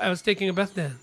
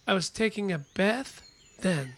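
First: The sentence is said at a fast pace. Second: The sentence is said at a slower pace.

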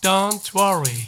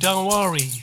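First: It is said slowly with the t sounded. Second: It is said quickly in a fast run. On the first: "チョンティーをゆっくりめに言った時に、チョンティーをちゃんと言う場合" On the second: "早く言います。"

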